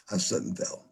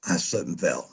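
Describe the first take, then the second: First: Unvoiced, whispered "I slipped and fell"; whispered excuse. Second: Said in the usual way. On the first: Shown as a demonstration. Rehearsing the excuse for the boss, in a whisper. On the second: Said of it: "And I said".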